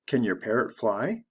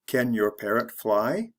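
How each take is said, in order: First: It is said fast and reduced. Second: It is said slowly and carefully.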